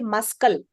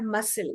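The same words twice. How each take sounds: First: A k sound is pronounced in the middle. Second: The c is silent, with no k sound. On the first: The speaker calls it wrong. "We don't say muscle" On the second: The speaker calls it right. "Let's move our muscle"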